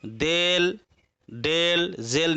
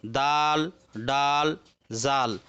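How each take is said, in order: First: देल, डेल, जेल with "ay" vowel, dayl, zayl; majhul, the rejected reading. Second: दाल, डाल, जाल with long open "aa"; maruf vowel. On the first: Teacher shows what not to read, देल, डेल, जेल in majhul "e". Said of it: "नहीं पढ़ेंगे।". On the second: Teacher models the Urdu reading, दाल, डाल, जाल in maruf "aa". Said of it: "Urdu में भी उसी तरह से मारूफ". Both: Shown as a demonstration.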